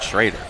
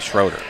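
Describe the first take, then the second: First: The stressed vowel sounds like 'ay'. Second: The stressed vowel sounds like 'oh'. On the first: The speaker calls it right. "He said Schrader" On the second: The speaker calls it wrong. "I say Schroeder"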